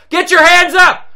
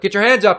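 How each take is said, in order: First: It is said loudly and forcefully. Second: It is said more calmly and quietly.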